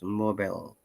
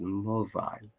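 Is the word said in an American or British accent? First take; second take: American; British. First: The word is said in an American accent. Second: The word is said in a British accent. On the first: "in the American English or American pronunciation" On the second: "in the British I P A or British pronunciation"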